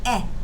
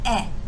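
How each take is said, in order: First: The vowel is a short 'eh' sound. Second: The same.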